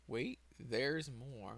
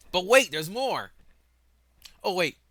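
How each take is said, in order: First: Slow, soft, words drawn out; note to self. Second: Loud, high announcer-style burst; mock sales pitch. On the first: Real, not acted. Speaker reminding self to come back to it, slow soft note to self. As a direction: say it slowly to yourself as a reminder. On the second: Speaker interrupting the galaxy plan with more to tell, mock sales-pitch shout. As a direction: sell it big, pitched right up.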